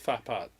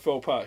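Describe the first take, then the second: First: The first word has an 'uh' vowel. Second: The first word has an 'oh' vowel. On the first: This is how it is actually said. "it's fa pot" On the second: This is how it is said locally. "We call it faux pot here in Michigan"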